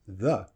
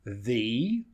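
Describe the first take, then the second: First: The vowel is reduced and quickly pronounced. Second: The vowel is full and clearly pronounced.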